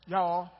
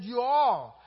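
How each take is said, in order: First: "Y'all" said as one clipped word, yah; mock Texan "Y'all"; Texas y'all. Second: Said in the usual way. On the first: Shown as a demonstration. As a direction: say "Y'all" instead of "you all", Texan style. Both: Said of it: "meaning he's from Texas".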